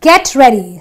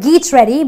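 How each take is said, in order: First: The first vowel sounds like short 'eh'. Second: The first vowel sounds like 'ee'. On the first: The speaker calls it right. "but it is a get ready. So the e gives me a clear, distinct eh sound" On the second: The speaker calls it wrong. "or geet ready"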